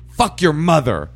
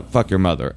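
First: High, loud, drawn-out insult; pitched-up mock fury; angry caller. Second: Hesitant, matter-of-fact repeat; subdued interpreter relaying awkward words; reluctant relay. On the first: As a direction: imitate a caller hurling an insult. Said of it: "And then she goes". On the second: Retold or imitated. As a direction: pass on the insult without the anger. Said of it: "and I go, uh, she said, uh".

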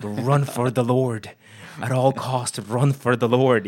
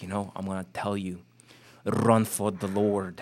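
First: Loud, slow, hammed-up German accent preaching; Reinhard Bonnke German accent. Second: Put-on light German accent, slowing on run for the Lord; a hint of a German preacher giving earnest advice. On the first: Guest retelling Bonnke's advice, loud hammed-up German accent. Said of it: "Probably a horrible accent that I just did". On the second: Quoting Reinhard Bonnke's advice to a young minister, light German accent. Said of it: "in this, like, German accent".

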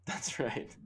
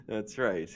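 First: Whispered, soft echo of the call; hushed agreement. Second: Said in the usual way. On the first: Pretend. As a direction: breathe it like a secret confirmation. Echoing the bold prediction.

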